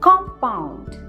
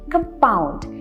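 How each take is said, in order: First: The stress is on the first syllable. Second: The stress is on the second syllable. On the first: A chemical substance made of combined elements. "First syllable पे हम stress दे रहे हैं" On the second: Interest that is calculated on accumulated interest. "यहां पे हम stress दे रहे हैं second syllable पे"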